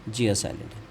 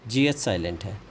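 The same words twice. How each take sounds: No difference in how they are said.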